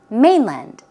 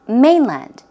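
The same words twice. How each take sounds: First: The stress is on the second syllable. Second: The stress is on the second syllable.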